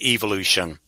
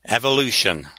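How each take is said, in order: First: The word is pronounced the British way. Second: The word is pronounced the American way. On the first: "In England, we would pronounce it evolution" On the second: "I'm becoming Americanized"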